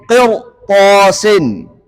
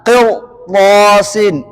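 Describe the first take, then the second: Both takes have the same delivery.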